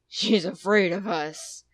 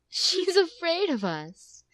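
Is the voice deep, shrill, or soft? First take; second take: deep; soft. First: It is said in a big, deep bear voice. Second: It is said in a soft motherly voice.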